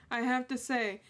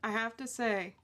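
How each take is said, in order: Both takes have the same delivery.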